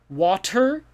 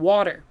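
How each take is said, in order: First: The middle consonant is a crisp T sound. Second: The middle consonant is a soft D sound. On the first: "maybe some people say it that way" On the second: "It's a almost like a D sound"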